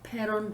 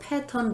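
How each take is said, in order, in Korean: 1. 중간 자음은 부드러운 플랩 소리예요. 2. 중간 자음은 분명한 t 소리예요. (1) "미국식 발음은 패런이에요" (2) "사실은 패턴이 아니고"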